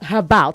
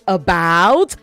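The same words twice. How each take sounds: First: The word starts with an added h sound. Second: The word starts with a vowel, no h sound. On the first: The speaker calls it wrong. "not about" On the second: The speaker calls it right. "You say about"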